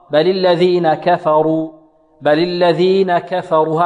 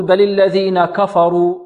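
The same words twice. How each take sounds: First: كفروا with thin, light kaf and fa; slow recitation, only the ra heavy in كفروا. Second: كفروا with thickened, dark kaf and fa; slow recitation making the first syllables of كفروا heavy. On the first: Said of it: "هكذا، كفروا". (ترقيق الكاف والفاء في كفروا) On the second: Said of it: "البعض يفخم الكاف والفاء". (تفخيم الكاف والفاء في كفروا) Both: Shown as a demonstration.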